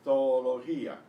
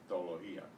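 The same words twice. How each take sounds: First: The two O sounds are separate syllables. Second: The two O sounds merge into one. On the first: "they're actually pronounced as separate syllables properly" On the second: "You will hear probably only one O normally"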